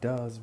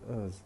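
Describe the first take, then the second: First: The word is said in its full, strong form. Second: The word is reduced to a weak, unstressed form. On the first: "instead of saying does" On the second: "we say us"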